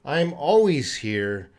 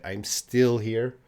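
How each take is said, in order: First: "always" stretched and stressed, slow delivery; slow down and lean on "always"; emphasis on always. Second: "still" stretched and stressed, slow delivery; slow down and lean on "still"; emphasis on still. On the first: Teacher showing how to say you never leave, stressing ALWAYS. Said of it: "You want to emphasize that you never leave". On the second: Teacher showing how to say you haven't left, stressing STILL. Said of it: "you want to emphasize you didn't leave yet". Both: Shown as a demonstration.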